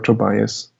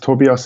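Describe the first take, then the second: First: The name is said with English pronunciation. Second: The name is said in a Swiss German dialect. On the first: "which is what people usually uh, say in English" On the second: "in my dialect"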